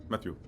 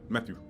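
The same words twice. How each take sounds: First: The vowels are dropped, leaving mostly consonants. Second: The same.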